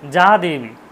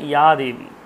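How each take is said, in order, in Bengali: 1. প্রথম শব্দটি j ধ্বনি দিয়ে শুরু হয়। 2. প্রথম শব্দটি y ধ্বনি দিয়ে শুরু হয়। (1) "যা দেবী বলে কিছু হয় না" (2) "ওটা উচ্চারণ হচ্ছে ইয়া দেবী"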